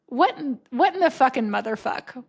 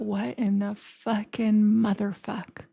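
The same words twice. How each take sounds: First: Louder, startled incredulous outburst; exclaimed swearing. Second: Slow, stretched-out incredulity; drawn-out swearing. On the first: Podcast replay as the mailman walked in, loud disbelief. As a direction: blurt it out in mock shock. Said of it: "I was saying something like". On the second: Reacting to the screensaver, slow bewildered disbelief. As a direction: draw each word out in comic bewilderment. Repeats the outburst for emphasis. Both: Retold or imitated.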